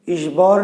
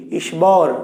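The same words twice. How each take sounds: First: ঈশ্বর as ish-shor, no b; silent ব. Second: ঈশ্বর as ish-bor, b sounded; wrong pronunciation. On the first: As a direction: say ঈশ্বর with a doubled sh. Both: Shown as a demonstration. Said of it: "তাহলে বয়ের উচ্চারণ কি করছি".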